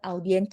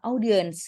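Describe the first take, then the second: First: It is pronounced the Indonesian way. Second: It is pronounced the English way. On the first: The speaker calls it wrong. "jadi jangan audience gitu" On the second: The speaker calls it right. "kita dengarkan itu ngomongnya gimana, audience gitu"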